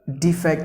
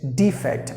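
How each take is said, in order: First: The stress is on the second syllable. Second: The stress is on the first syllable. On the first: It means moving from one point to another. "if you stress the second part, it means a verb" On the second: It means a fault or mistake. "If you stress the first syllable"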